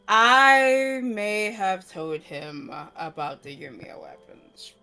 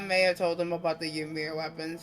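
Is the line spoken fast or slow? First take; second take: slow; fast. First: It is mumbled a little more slowly. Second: It is mumbled quickly. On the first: "She does it a little slower, but the mumble is just, just is she's still mumbling" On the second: "mumbly fast say the next one"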